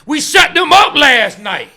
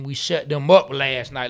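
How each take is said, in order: First: It is exclaimed loudly with excited emphasis. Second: It is read out flatly, without emphasis.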